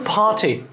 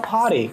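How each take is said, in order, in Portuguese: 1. É falado com sotaque britânico. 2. É falado com sotaque americano. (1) "você não vai pegar na série de Friends e ouvir ninguém falando party" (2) "Porque Friends é americano, os caras vão falar party"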